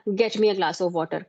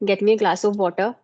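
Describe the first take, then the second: First: It sounds like a firm order. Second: It sounds like a polite request. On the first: The listener is being ordered to do it. "Command है" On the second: The listener is being politely asked to do it. "It's a request kind of"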